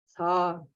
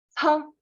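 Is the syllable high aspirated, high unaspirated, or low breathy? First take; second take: low breathy; high aspirated. First: Low tone with a slight puff of breath. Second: High tone with a strong puff of breath. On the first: "третий низкий тон с небольшим придыханием" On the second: "Второй высокий тон с придыханием"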